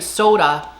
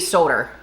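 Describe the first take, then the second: First: The word ends in a plain vowel. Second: The word ends with an added R sound. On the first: "instead of saying soda" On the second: "they throw the R's in in places it doesn't belong"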